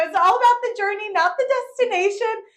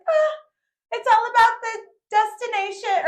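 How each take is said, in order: First: High loud fast mock-wise saying; smug proclamation. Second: High loud mock-wise saying; smug proclamation. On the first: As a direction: preach it like a guru. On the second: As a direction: pronounce it like a guru. Smug quote, then corrected. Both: Showing off on the rocks, high smug proclamation.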